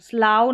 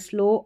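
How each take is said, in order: First: The vowel sounds like 'ow' in cow. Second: The vowel sounds like 'oh' in go. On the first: The speaker calls it wrong. "स्लाव नहीं पढ़ेंगे" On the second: The speaker calls it right.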